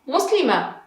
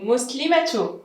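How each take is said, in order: First: The word ends on a vowel, with no t. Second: The word ends with a t and u. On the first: "without muslima" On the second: "The same, muslimatu"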